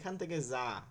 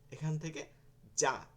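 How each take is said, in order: First: The 'j' sound is said soft and light. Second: The 'j' sound is said hard and forceful. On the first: The speaker calls it wrong. "এটা কিন্তু নরম হয়ে গেল" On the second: The speaker calls it right. "শক্ত করে বলেন"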